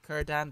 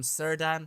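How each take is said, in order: First: The name begins with a k sound. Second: The name begins with an s sound. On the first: The speaker calls it right. "His name is actually Kurdan" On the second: The speaker calls it wrong. "I've been pronouncing him Sirdan"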